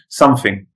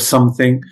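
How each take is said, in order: First: The middle consonant is an f sound. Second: The middle consonant is a th sound. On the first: "They change the TH to F" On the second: "instead of something"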